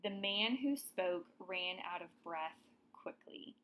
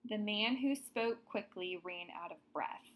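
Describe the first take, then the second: First: Corrected sentence read out. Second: Example sentence read out. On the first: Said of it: "a better way to write this one". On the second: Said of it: "Another example". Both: Shown as a demonstration.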